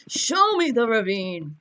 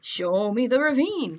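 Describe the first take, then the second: First: Loud, drawn-out mock-angry demand; aggressive demand. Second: Count Dracula. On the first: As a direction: demand it slowly, like an unhinged bully. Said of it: "start slapping them aggressively". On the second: Acted. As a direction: intone it like a theatrical vampire, pitch rising then falling. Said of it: "like, Count Dracula".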